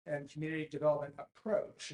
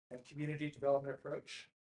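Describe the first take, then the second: First: "approach" given deliberate emphasis; stress on approach. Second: Said in the usual way. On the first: Real, not acted. Presenter to audience on planning criteria, stressing "approach". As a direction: lean firmly on the word "approach". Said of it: "I wanna emphasize the word approach". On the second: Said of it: "emphasize the word approach".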